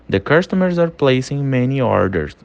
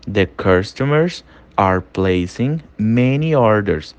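First: Said in the usual way. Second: Slow and clearly spaced for learners to repeat; slow drill read of "The customers are placing many orders"; slow model sentence. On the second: Shown as a demonstration. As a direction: spell it out slowly, word by word. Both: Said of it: "Tudo que eu falar em inglês, você vai ler e você vai repetir".

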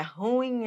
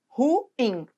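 First: "ruim" softly run together as RÚIM; softer, mispronounced RÚ-im for "ruim"; wrong one-syllable stress. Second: "ruim" split into ru-IM; stress on the IM. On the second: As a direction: pronounce "ruim" in two clear syllables, weight on IM. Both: Shown as a demonstration. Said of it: "Nada de falar por aí".

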